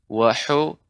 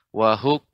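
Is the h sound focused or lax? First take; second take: focused; lax. First: The h sound is focused and precise. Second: The h sound is lax and unfocused. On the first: The speaker calls it right. "seharusnya lebih fokus lagi" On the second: The speaker calls it wrong. "kalau tidak fokus jadi H besar"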